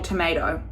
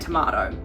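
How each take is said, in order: First: Tomato is said with an American pronunciation. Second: Tomato is said with a non-American pronunciation.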